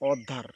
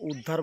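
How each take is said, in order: First: The word begins with an 'o' vowel sound. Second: The word begins with a 'u' vowel sound. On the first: The speaker calls it right. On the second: The speaker calls it wrong. "এখানে আবার উদ্ধার বলবেন না"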